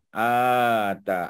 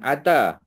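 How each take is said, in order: First: The first vowel is long. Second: The first vowel is short. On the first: The speaker calls it right. "a panjang ya" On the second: The speaker calls it wrong. "bukan ata"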